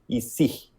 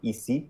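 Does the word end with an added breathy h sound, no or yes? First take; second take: yes; no. First: The final vowel ends with a breathy h sound. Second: The final vowel ends cleanly without breathiness. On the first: "in Paris, a lot of people will do kind of like a h sound at the end of every e. They'll go ici" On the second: "one of the ways is to say ici in French"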